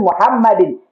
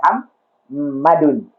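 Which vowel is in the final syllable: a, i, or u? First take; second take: i; u. First: The word ends in an -in sound. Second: The word ends in an -un sound. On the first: The speaker calls it right. "tapi Muhammadin" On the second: The speaker calls it wrong. "bukan Muhammadun"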